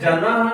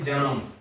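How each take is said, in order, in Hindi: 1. शब्द का अंत बिना m के स्वर से होता है। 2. शब्द का अंत आधे m की ध्वनि से होता है। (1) "जना नहीं है" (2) "ये जन्म"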